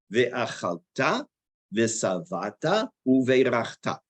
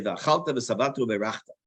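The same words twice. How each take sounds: First: Ve'achalta ve'savata uve'rachta slow, stress on the last syllable, rising; correct stress. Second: Ve'achalta ve'savata uve'rachta stressed on the middle syllable; wrong stress. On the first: Shown as a demonstration. Teacher reading the verse correctly, slow. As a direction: sound each word out slowly, final syllable stressed. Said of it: "accent on the wrong word". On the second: Retold or imitated. Teacher imitating the common wrong stress. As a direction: mimic the wrong stress, quicker. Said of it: "they're saying the accent on the wrong word".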